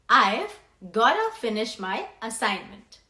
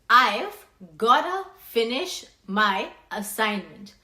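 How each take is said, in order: First: The words are contracted to I've gotta. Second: The same.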